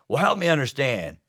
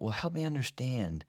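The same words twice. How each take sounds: First: It sounds sarcastic and insincere. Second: It sounds sincere and genuinely curious.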